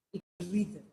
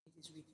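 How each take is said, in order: First: Said in the usual way. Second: It is rhythm, barely voiced; whispered echo. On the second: Shown as a demonstration. Preacher echoing the point, almost silent. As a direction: fade it to a whisper. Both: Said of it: "repeated line".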